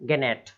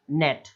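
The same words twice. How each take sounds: First: "गेनेट" with the g sounded; mispronunciation. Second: "नेट" with no g at all; silent g. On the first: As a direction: read "गेनेट" as beginners do, g voiced before the n. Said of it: "अब इसको लोग कैसे पढ़ेंगे". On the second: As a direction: say just "नेट", starting straight on the n. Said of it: "केवल इतना ही". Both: Shown as a demonstration.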